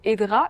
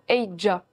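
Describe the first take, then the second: First: The name ends with a 'dra' sound. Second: The name ends with a 'dja' sound. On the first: The speaker calls it wrong. "c'est pas tout à fait Edra" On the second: The speaker calls it right. "mais plutôt Eidja"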